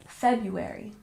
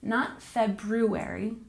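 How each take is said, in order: First: The first R sound is dropped. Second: The first R sound is pronounced. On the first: The speaker calls it right. "we don't say the first one. We pronounce it like February" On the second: The speaker calls it wrong.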